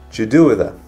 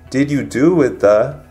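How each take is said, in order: First: The words blend into one reduced word. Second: Each word is said separately and fully.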